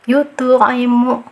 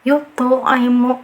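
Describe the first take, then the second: No difference in how they are said.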